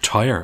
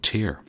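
First: The name rhymes with the word tyre. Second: The name rhymes with the word tear. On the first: The speaker calls it right. "It's pronounced like the word tyre" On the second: The speaker calls it wrong. "I'm going to continue to mispronounce it as Tear"

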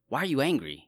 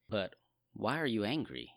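First: It is said in a harsh, stern tone. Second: It is said in a gentle, compassionate tone.

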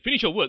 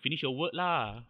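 First: It sounds harsh, like shouting an order. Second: It sounds soft, chill and relaxed.

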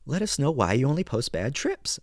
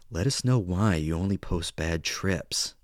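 First: The voice sounds light and cheerful. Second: The voice sounds dark and eerie. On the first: "So if I were to read something happy" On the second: "if I read it like this"

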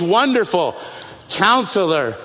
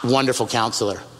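First: There is a pause after Wonderful. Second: It runs on with no pause between words.

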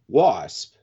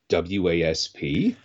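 First: It is said as a single word. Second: It is spelled out letter by letter. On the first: This is how people usually say it. "everyone just calls them Wasp" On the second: This treats the name as an acronym. "would the proper pronunciation of Wasp be W-A-S-P?"

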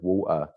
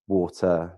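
First: The middle T is dropped. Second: The middle T is clearly pronounced. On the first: "It was always water" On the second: "I never used to say my T's mid words, like later, matter, water"

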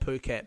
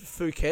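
First: The word begins with a p sound. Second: The word begins with an f sound. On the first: The speaker calls it right. "So I think it might be called Phuket" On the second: The speaker calls it wrong. "I've said Phuket because it's got the PH"

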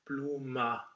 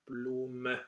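First: The final vowel sounds like an a. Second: The final vowel is a short, open e. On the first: The speaker calls it wrong. "it sounds more like an a" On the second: The speaker calls it right. "It's this open epsilon sound"

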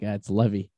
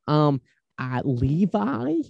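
First: The name is said unlike the jeans brand. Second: The name is said like the jeans brand. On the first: The speaker calls it right. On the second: The speaker calls it wrong.

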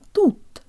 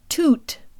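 First: The t has no puff of breath after it. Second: The t has a puff of breath after it. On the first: The speaker calls it right. "Make sure there's no buzz or aspiration" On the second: The speaker calls it wrong. "Make sure there's no buzz or aspiration. It's not toot"

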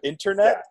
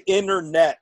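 First: The word is said with a standard pronunciation. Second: The word is said with a local Nebraska pronunciation. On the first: "instead of internet" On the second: "they do like to say internet"

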